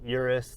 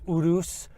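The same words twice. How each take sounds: First: It is said the American way. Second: It is said the Italian way.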